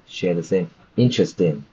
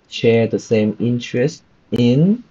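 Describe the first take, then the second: First: Interest and in are joined into one flow. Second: Interest and in are said as separate words. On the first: The speaker calls it right. "It should have been" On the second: The speaker calls it wrong. "same problem as uh, Phương with connected speech"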